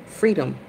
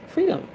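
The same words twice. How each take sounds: First: Said in the usual way. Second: High exclaimed freedom. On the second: Real, not acted.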